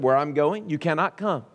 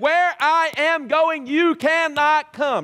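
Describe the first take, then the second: First: The line is said in a plain, simple way. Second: The line is said in a heightened, dramatic way. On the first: The speaker calls it right. "I think he just said it" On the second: The speaker calls it wrong. "he didn't say it like that"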